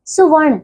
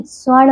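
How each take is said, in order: First: सुवर्ण said as "su-varn"; wrong extra syllable. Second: स्वर्ण said as "svarn"; correct joined opening. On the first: Teacher showing pupils the error, सुवर्ण split "su-varn". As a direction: separate su from va in सुवर्ण. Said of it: "सुवर्ण नहीं". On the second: Teacher correcting pupils, स्वर्ण with joined sv. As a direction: run s and v together in स्वर्ण. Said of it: "स्वर्ण होता है". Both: Shown as a demonstration.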